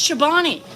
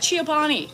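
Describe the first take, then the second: First: The name begins with a single syllable: cho. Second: The name begins with an extra 'ee' sound: chee-oh. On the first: The speaker calls it right. "It's Chobani" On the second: The speaker calls it wrong. "I call it Chiobani"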